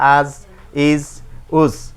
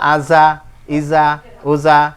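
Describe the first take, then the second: First: Each syllable ends on a bare consonant. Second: Each syllable ends with a short -a vowel. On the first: The reader stops here. "এটাই আরজি সাকিন" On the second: The reader continues without stopping. "জবরে না থামিলে যেমন আছে তেমন করেই পড়তে হয়"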